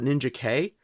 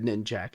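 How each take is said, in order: First: The name is 'ninja' followed by the letter K. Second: The name is two syllables, ending in 'jack'. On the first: This is how other people say it. "I've heard other people call it Ninja K" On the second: This is how the speaker has always said it. "I've always said Ninjak"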